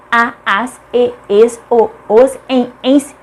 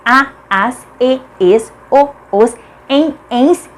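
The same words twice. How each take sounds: The two takes are said the same way.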